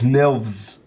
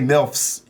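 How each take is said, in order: First: The word is said with a v sound. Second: The word is said with an f sound. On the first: "He says Milvs" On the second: "You don't say Milfs"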